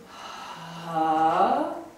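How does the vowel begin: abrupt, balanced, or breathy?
breathy. The vowel starts with an audible breathy puff. "soft onset is ha"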